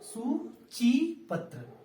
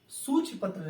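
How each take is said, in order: First: The vowel after ch is long. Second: The vowel after ch is short. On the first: The speaker calls it right. "च पर बड़ी की मात्रा" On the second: The speaker calls it wrong. "सूचिपत्र नहीं"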